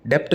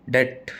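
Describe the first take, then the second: First: डेप्ट with the P sounded; wrong pronunciation. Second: डेट with a silent B, said like date; correct pronunciation. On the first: Teacher warning students off the wrong way, P sounded. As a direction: show the mistake, P spoken in डेप्ट. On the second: Teacher modelling the correct word for students, B silent. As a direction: give the right form, डेट with no B. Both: Shown as a demonstration. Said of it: "डेप्ट नहीं बोलना".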